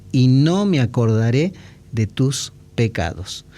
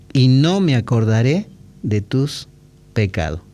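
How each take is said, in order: No difference in how they are said.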